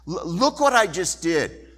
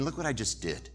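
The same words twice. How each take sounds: First: "Look what I just did" louder, pushed hard; emphatic repeat. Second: Said in the usual way. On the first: Shown as a demonstration. God insisting to Elijah, louder and emphatic. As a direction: hit "what" and lift the whole line.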